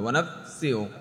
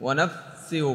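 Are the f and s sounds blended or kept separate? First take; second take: blended; blended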